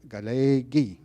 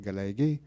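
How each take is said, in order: First: The e vowel is long. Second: The e vowel is short. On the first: The speaker calls it right. "That e, that's what he recognized" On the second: The speaker calls it wrong. "If I said it a short e"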